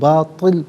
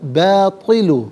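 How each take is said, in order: First: The word ends on a bare 'l' consonant. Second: The word ends with a short '-u' vowel. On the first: The reading stops here. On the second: The reading continues without stopping.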